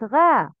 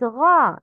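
First: Front "a" in غا; light ghayn. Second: غا with a dark back "aa"; thick "ghaw" for غا; heavy ghayn. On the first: Teacher showing the mistake, light غا. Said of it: "not غا". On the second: Teacher correcting learners, heavy غا. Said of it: "Heavy letters have heavy sounds". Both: Shown as a demonstration.

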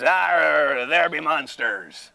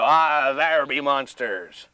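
First: Pirate voice. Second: Slow pirate voice. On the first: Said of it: "I would just". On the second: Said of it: "You can go". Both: Shown as a demonstration.

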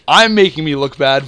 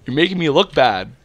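First: I'm punched louder, self-correcting; I'm said with a loud accent of self-blame; stress on I'm. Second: Said in the usual way. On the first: Shown as a demonstration. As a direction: hit the word I'm, owning the blame.

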